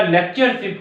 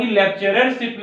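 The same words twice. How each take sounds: First: लेक्चरशिप with a single r before "ship"; लेक्चरशिप without the extra "rar" syllable; correct form लेक्चरशिप. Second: लेक्चररशिप with a doubled "-rer" before "ship"; लेक्चररशिप in four syllables, the "rar" added; wrong form लेक्चररशिप. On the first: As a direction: say लेक्चरशिप in three syllables, lek-char-ship. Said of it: "हमेशा लेक्चरशिप होता है". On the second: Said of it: "कभी लेक्चररशिप नहीं होता". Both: Shown as a demonstration.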